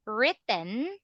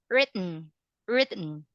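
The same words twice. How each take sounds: First: "written" with a clear vowel before the final n; American written. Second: "written" said lower, E dropped before the n; British written. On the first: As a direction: sound the E in "written", American style. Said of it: "that is American". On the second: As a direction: go from t straight to n in "written", British style. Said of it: "That's British". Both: Shown as a demonstration.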